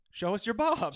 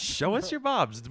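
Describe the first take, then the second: First: High, loud pitch; mock announcer plea. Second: High, loud, slow call; drawn-out loud plea. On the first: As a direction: call it out to listeners. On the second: Acted. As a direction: stretch it out, hamming. Echoing the plea.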